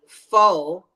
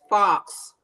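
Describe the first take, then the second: First: The word ends without an X sound. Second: The word ends with an audible X sound. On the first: The speaker calls it right. "The X is silent" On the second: The speaker calls it wrong. "beings may pronounce it as fox"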